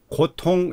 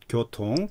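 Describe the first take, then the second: First: The first syllable is a plain 'go' sound. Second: The first syllable is a drawn-out 'gyo' sound. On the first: The speaker calls it wrong. "고통 이렇게 하는 경향이 있어요" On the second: The speaker calls it right. "조금 길게"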